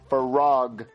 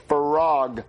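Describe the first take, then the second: First: The word is said with an R sound. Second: The word is said with an R sound.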